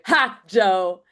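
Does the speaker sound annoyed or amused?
amused. It sounds amused and delighted.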